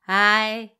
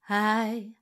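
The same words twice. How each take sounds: First: The voice is bright and pinched, with twang. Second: The voice is soft and gentle, without twang. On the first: "et pas hi, hi avec du twang" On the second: "je suis dans la douceur"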